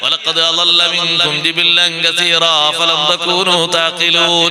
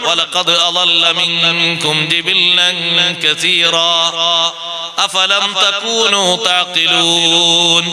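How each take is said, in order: First: The -n drops with no pause between words. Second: A breath pause comes after 'kathira'. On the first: Stopping and joining are mixed up. The speaker calls it wrong. "ഈ ഓത്ത് തെറ്റാ ... കൂട്ടി കുഴമ്പിച്ചത്" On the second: The verse is stopped at that point. The speaker calls it right. "നിർത്തുമ്പോ ശ്വാസം വിടണമല്ലോ"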